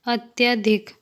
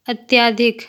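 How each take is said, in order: First: Short a after ty in "अत्यधिक"; correct pronunciation. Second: Long aa after ty in "अत्यधिक", like "अत्याधिक"; incorrect pronunciation. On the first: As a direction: say "अत्यधिक" with a short middle vowel. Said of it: "शुद्ध शब्द". ("अत्यधिक" का शुद्ध उच्चारण, बीच में छोटा अ) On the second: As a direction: say "अत्यधिक" wrongly with a stretched middle vowel. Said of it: "अशुद्ध शब्द". ("अत्यधिक" का अशुद्ध उच्चारण, बीच में लंबा आ) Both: Shown as a demonstration.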